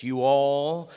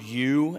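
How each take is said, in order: First: A hint of Texas drawl on "you all", higher and louder; lightly mock Texan "you all". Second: Said in the usual way. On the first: Shown as a demonstration. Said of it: "like Texas". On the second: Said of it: "we see the word".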